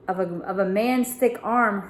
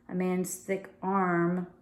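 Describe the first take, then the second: First: Said in the usual way. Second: Slow, puzzled reread. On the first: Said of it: "read that again". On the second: Real, not acted. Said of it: "That's what it says".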